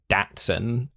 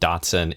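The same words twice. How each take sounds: First: It is said with a British pronunciation. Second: It is said with an American pronunciation.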